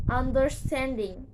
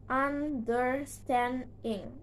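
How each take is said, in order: First: Said in the usual way. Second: "understanding" slowly split into un, der, stand, ing; four slow, separate beats on "understanding"; syllable by syllable. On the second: Shown as a demonstration. Teacher showing four syllables, "understanding" slowly broken apart. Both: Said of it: "next is four syllables".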